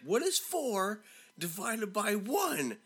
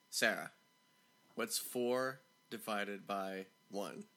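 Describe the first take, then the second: First: High, slow, exasperated demand; retold teacher's yell, every word drawn out; mock yelling. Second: Lower, slow, spaced-out question; slow, patient repeat. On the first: Teacher fed up with Sarah, high slow mock yell. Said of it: "so now he's, like, yelling". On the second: Retold or imitated. Teacher repeating to a stuck pupil, slow and deliberate. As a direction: repeat it slowly, word by word.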